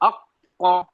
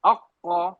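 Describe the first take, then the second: The two takes are said the same way.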